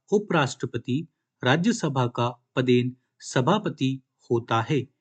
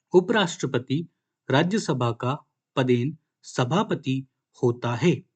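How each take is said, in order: Both takes have the same delivery.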